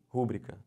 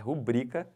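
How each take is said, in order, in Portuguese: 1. A sílaba tônica é a primeira. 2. A sílaba tônica é a segunda. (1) "O pessoal fala como isso aqui? ... Não, não pode. Isso não é proparox" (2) "isso é paroxítona. É rubrica sempre"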